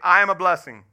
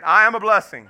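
First: It is said plainly, without extra force. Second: It is said with strong, emphatic conviction.

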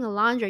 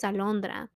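First: The name is said with an English pronunciation. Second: The name is said with a Spanish pronunciation. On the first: "why are you saying Alondra?" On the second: "Your name's Alondra"

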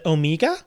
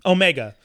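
First: The name is said in an Australian accent. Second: The name is said in a neutral accent.

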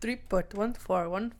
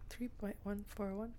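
First: It is said in a silly put-on voice. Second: It is said in a normal speaking voice. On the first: The speaker calls it right. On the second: The speaker calls it wrong.

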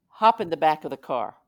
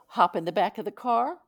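First: It is said firmly, with no doubt. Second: It is said hesitantly, with doubt.

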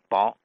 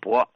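First: The word is said with an 'ao' vowel. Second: The word is said with an 'o' vowel. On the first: This is the Tianjin dialect reading. "天津读成薄" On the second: This is the standard reading. "厚薄的薄应该读成薄"

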